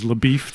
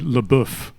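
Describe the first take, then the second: First: The name is said with an English pronunciation. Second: The name is said with a French pronunciation. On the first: The speaker calls it wrong. "he himself introduces himself as LaBeef" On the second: The speaker calls it right. "as somebody who grew up speaking French, the way that name is spelled should be LeBoeuf"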